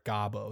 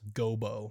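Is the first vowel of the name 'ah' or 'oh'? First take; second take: ah; oh. First: The first vowel sounds like 'ah'. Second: The first vowel sounds like 'oh'. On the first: The speaker calls it wrong. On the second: The speaker calls it right. "that's how it's pronounced"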